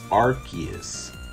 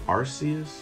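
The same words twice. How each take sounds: First: The C is said with a K sound. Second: The C is said with an S sound. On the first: This is how many others say the name. "A lot of people pronounce it as Arceus" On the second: This is how the speaker believes the name should be said. "shouldn't it be Arceus? ... I don't know that the C warrants the K sound"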